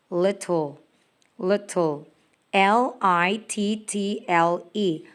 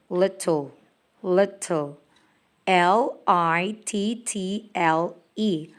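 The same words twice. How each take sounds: The two takes are said the same way.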